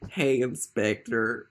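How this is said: It is said in a camp Southern accent.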